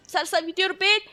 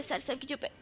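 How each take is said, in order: First: Said in the usual way. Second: Dropped almost to a murmur; quiet mumbled aside. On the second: Real, not acted. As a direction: say it under your breath. Mumbled, then repeated louder.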